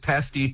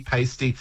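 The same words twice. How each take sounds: First: Pasty with the short A vowel; first pronunciation variant. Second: Pasty with the long AY vowel; second pronunciation variant. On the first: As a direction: say pasty as "PASS-tee". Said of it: "or, you know, all these kind of little things". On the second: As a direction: say pasty as "PAY-stee". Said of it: "it's always in the vowel". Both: Shown as a demonstration.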